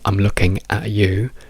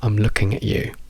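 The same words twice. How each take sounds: First: The word 'at' has a full, strong vowel. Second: The word 'at' is reduced to a schwa. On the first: The speaker calls it wrong. "non diciamo" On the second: The speaker calls it right. "diciamo I'm looking at you"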